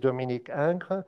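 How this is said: The name is pronounced with French sounds. "So in French is"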